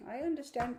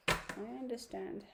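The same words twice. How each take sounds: First: Said in the usual way. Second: Slower, softer "I understand"; soft, slow reassurance; gentle repeat. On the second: Real, not acted. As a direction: say it again slowly and soothingly.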